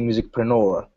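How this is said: The word is said in an American way. "the Americans say musicpreneur"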